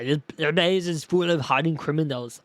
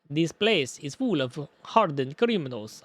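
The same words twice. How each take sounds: First: It is a Terminator-style robotic Austrian accent. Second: It is an attempted Russian-style accent. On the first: "Maybe I'll give him Terminator" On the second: "No, that's not Russian"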